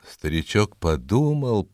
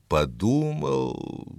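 First: Said in the usual way. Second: Drawn-out, pondering; slow thoughtful repeat. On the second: A narrator's reading. Narrator lingers on the old man's thinking, slow. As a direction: stretch the word as if thinking.

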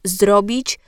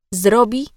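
First: "zrobić" with the final ć clearly sounded; full ending. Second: "zrobi" without the final ć; clipped ending. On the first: Diction coach showing the careful form, final ć pronounced in "zrobić". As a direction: finish "zrobić" on an audible ć. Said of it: "zrobi zamiast zrobić". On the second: Diction coach demonstrating a cut ending, final ć dropped in "zrobi". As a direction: end "zrobi" on the bare vowel i. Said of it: "Ucinanie końcówek wyrazów to norma". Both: Shown as a demonstration.

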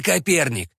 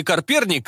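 First: "Коперник" as ka-PER-nik; corrected pronunciation. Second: "Коперник" garbled as "Карперник"; muddled name. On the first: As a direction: say "Коперник" cleanly, no r before the p. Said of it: "сказал Тайницкий". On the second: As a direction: put a stray r in "Коперник": kar-PER-nik. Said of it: "не понял поручик". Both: A narrator's reading.

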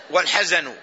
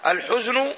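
First: والحزن said wal-hazanu, a after both h and z; والحزن as ha-za-nu after the article; second variant vowelling. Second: الحزن said al-huznu, u then no vowel on the z; الحزن as huz-nu after the article; first variant vowelling. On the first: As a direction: open both syllables of والحزن with short a. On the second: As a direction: close the first syllable of الحزن on z. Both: Shown as a demonstration. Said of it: "لغتان في الكلمة".

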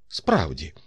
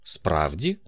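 First: «Справді» as a firm statement, falling at the end; «Справді» said as a settled answer, no question; confirming. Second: «Справді?» with a rising, questioning end; «Справді?» as a doubting question, rising at the end. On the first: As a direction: confirm «Справді», peaking early then dropping. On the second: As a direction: ask «Справді?», lifting the last syllable. Surprised question, then the confirming answer. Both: Acted.

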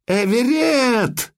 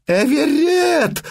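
First: Desperate cry. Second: A long, high howled cry; howled name. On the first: Mother screams for drowning son. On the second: Mother howling for her seized boy, long high wail. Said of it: "взвыла Матрона". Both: Acted.

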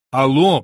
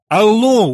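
First: A firm, louder hello into the phone; raised-voice hello; repeated phone hello. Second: Loud, high shout into the phone; full-voiced, raised-pitch telephone shout. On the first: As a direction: call "Алло" down the line, not yet shouting. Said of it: "повторил я". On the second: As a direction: yell "Алло" down a bad line. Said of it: "уже кричал я". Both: A narrator's reading.

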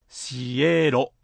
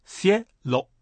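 First: シエロ stretched apart, si-eee-ro; wrong, split vowels. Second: シエロ as two syllables, sie-lo; correct two beats. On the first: Teacher warns against this, シエロ with vowels separated. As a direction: pull the i and e of シエロ into separate drawn-out beats. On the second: Teacher models the word for sky, シエロ in two beats. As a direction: glide "ie" together in シエロ, then a separate lo. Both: Shown as a demonstration. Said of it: "決してシエロではありませんよ".

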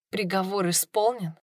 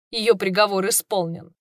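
First: Quiet shocked question, softer; stunned disbelief. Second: Said in the usual way. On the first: Acted. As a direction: echo it back in numb shock. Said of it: "echoed in disbelief".

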